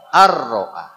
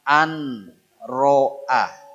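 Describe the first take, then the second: First: The n merges into the following r sound. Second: The n sound is kept before the r. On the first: "baca apa?" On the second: "ada tulisan an ro'a"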